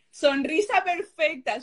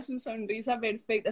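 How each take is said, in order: First: Sonrisa perfecta said slowly and higher, each word savoured; slow, higher, admiring; savoured praise. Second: Su sonrisa perfecta repeated much softer, to herself; quiet dreamy repetition; soft echo. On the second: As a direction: let su sonrisa perfecta fall away softly. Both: Real, not acted.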